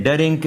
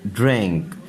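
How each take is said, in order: First: डरिंक with a short "a" between d and r; wrong added vowel. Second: ड्रिंक in one syllable, d straight into r; joined dr cluster. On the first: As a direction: say डरिंक as "da-rink". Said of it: "नहीं पढ़ना". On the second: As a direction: model ड्रिंक with no vowel after d. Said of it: "इस तरह नहीं करना". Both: Shown as a demonstration.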